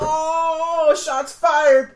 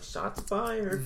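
First: It is said in a big, exaggerated way. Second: It is said in a subtle, understated way.

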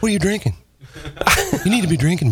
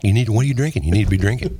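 First: It is said in an imitation of another voice. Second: It is said in the speaker's ordinary voice. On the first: The speaker calls it right. "He's like" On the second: The speaker calls it wrong. "he doesn't say it like that"

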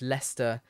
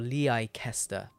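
First: The name is said in its local form. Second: The name is read out as it is spelled. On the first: The speaker calls it right. "but it's Leicester" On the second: The speaker calls it wrong. "or Leicester"

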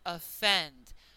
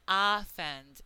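First: The first vowel is reduced to schwa. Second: The first vowel is a full vowel. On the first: The speaker calls it right. "So that O is reduced to the sound" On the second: The speaker calls it wrong. "It's not offend"

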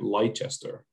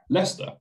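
First: It is said the American way. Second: It is said the British way. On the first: The speaker calls it wrong. "every American I have met has called it Leicester" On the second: The speaker calls it right. "we call it Leicester"

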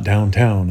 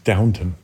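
First: The second syllable sounds like 'town'. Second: The second syllable sounds like 'tun'. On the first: The speaker calls it wrong. "That's not downtown" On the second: The speaker calls it right. "It's Downton"

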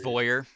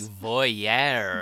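First: The word is said with a plain English pronunciation. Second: The word is said with an exaggerated French pronunciation. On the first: The speaker calls it right. "It's voyeur" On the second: The speaker calls it wrong. "You said like voyeur. Like that. You tried to voyeur. Make it very, very, very French"

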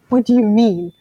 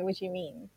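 First: It is said in a sharp, confrontational tone. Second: It is said in a soft, puzzled tone. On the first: The speaker is challenging what was said. The speaker calls it wrong. "if we had the tone now at the counter, so it makes it seem like" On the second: The speaker genuinely wants an explanation. The speaker calls it right. "you genuinely don't understand what's going on"

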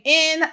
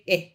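First: The word is said clearly in full. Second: The word is reduced to a vague vowel. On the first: The speaker calls it right. "instead of saying in" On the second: The speaker calls it wrong. "I'm saying eh"

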